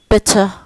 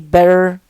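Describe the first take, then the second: First: It is said in a British accent. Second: It is said in an American accent. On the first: "British say better" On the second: "Americans say better"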